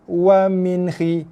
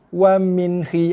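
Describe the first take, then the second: The two takes are said the same way.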